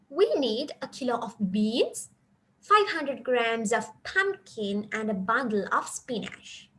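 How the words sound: Short pauses separate each item in the list. Three separate products are listed. "so here I paused here near these beans where, uh, where they have put a comma"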